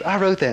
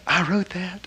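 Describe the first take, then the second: First: I wrote that said as a falling, proud statement, higher and louder, stress on wrote; delighted claim. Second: I wrote that rising into a wondering question, stress on wrote; childlike question. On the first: Master telling Boda proudly, high and delighted. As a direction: announce it with gleeful pride. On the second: Master marveling at the recited teaching, rising wonder. This childlike, you know, look. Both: Retold or imitated.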